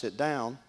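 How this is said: The voice is relaxed and casual. He wants me to sit down. "then I would know he wants me to sit down"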